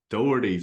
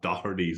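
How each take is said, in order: First: It is said the Australian way. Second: It is said the Irish way.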